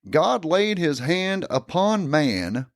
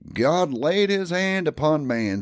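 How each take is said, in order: First: It is read at a slower pace. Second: It is read at a quicker pace.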